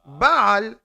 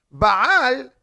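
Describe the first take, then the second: First: "Baal" as BA-al, stress up front; accent on first syllable. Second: "Baal" as ba-AL, AL higher and louder; accent on second syllable. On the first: Teacher defining the word for master, "Baal" stressed on BA. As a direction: hit the first vowel of "Baal". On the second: Teacher giving the intimacy reading, "Baal" stressed on AL. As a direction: punch the last syllable of "Baal". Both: Shown as a demonstration. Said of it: "where you put the accent".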